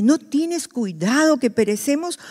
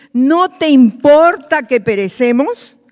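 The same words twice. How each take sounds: First: Said in the usual way. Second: Raised, slow, drawn-out pleading question; pleading outcry. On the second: Acted. Disciples crying to the Lord in the storm, loud and slow. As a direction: cry it out over the storm. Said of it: "Otras versiones dicen".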